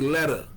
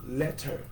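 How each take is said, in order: First: The middle consonant sounds like a D. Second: The middle consonant is a crisp T sound. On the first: "We say letter. Our T's be like D's" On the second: "that's how it's spelled"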